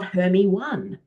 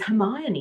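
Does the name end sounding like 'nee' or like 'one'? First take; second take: one; nee. First: The name ends with the word 'one'. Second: The name ends with a 'nee' sound. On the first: The speaker calls it wrong. "not Hermie one" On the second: The speaker calls it right. "I learned her name is Hermione"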